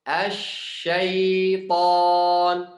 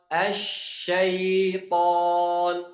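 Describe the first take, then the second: No difference in how they are said.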